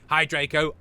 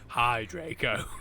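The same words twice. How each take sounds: First: It is said in a neutral reading voice. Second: It is said in a gloomy, depressed voice.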